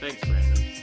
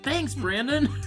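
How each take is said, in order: First: It is said in a displeased, grudging tone. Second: It is said in a cheerful, delighted tone. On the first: The speaker is not enjoying the story. "But right now" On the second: The speaker is enjoying the story. "if we get to Mistborn and I'm just having a great time"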